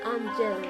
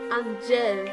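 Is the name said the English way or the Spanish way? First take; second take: Spanish; Spanish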